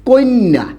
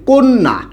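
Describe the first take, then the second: First: An extra i sound comes before the cluster. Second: It is said without an extra i sound. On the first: "এটাকে আমরা উচ্চারণ করি কি বলুন তো?" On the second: "আমি একটা শব্দ বললাম হচ্ছে কন্যা।"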